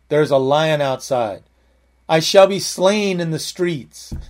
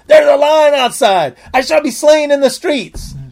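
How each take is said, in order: First: It is read in a calm, plain voice. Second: It is read in an excited, exclaiming voice.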